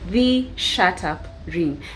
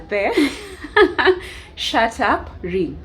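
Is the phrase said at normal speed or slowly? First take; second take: normal; slowly. First: The phrase is said at a normal speed. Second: The phrase is said slowly and deliberately.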